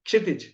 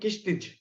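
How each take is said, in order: First: The name begins with a 'ksh' cluster. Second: The name begins with a 'kish' sound. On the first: The speaker calls it right. "as an Indian, I can pronounce very easily" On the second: The speaker calls it wrong. "they will make a mess of his name"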